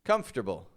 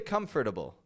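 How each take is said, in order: The two takes are said the same way.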